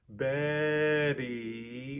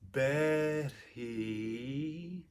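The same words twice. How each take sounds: First: The middle tap is voiced, with voicing continuing throughout. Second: The middle tap is voiceless, with voicing cut off. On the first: "where the voicing keeps going all the way through" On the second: "Here I'm taking away the voicing in the middle of the word"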